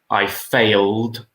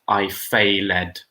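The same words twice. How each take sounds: First: The ending is a plain 'd' sound. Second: The ending is an extra 'id' syllable. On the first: The speaker calls it right. "we would say I failed ... We don't pronounce the E" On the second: The speaker calls it wrong. "not I failed"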